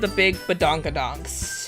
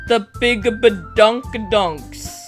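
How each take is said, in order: First: The phrase is said plainly, without extra emphasis. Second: The phrase is said with strong, heavy emphasis.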